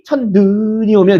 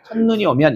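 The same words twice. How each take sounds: First: The vowel in 눈 is drawn out long. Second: The vowel in 눈 is said short. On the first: The speaker calls it wrong. "이렇게 안 한다고요" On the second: The speaker calls it right. "이렇게 합니다"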